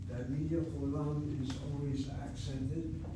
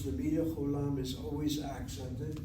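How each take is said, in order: First: Slower, word by word, stressing medial; deliberate teacher's repeat for students; slow emphatic repeat. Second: Said in the usual way. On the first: Shown as a demonstration. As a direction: spell it out slowly so it sticks.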